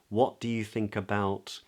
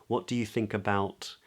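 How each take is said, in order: Both takes have the same delivery.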